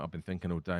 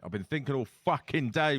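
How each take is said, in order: First: Said in the usual way. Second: Exasperated, lean on "fucking day"; exasperated emphasis. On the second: Real, not acted. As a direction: stress on "fucking" and a rising "day". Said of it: "calm down".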